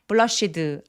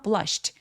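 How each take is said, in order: First: The final sound is a voiced d. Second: The final sound is a voiceless t. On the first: The speaker calls it wrong. "blushed 안 돼요" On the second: The speaker calls it right. "뒤에 이는 통으로 트로 발음해서"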